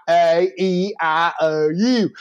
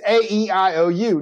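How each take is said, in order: First: Slow, drawn-out Southern drawl on "A E I O U"; mock Southern vowels. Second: Said in the usual way. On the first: Student mocks teacher's vowels, "A E I O U" drawled slowly. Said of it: "integration into the South from the North". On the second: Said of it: "not A E I O U".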